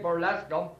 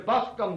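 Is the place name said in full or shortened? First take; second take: full; shortened. First: The name is said in full with all syllables. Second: The name is shortened to two syllables. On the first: This is the standard form of the name. "We wouldn't say Burlescombe" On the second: This is how locals say the name. "When we used to say, going to Buscombe today"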